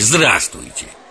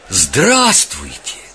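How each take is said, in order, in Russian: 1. Произносится быстро и пренебрежительно. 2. Произносится с большой радостью. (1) "Скороговоркой из подтекста, мах, отстаньте" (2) "Так радостно"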